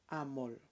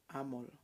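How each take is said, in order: Both takes have the same delivery.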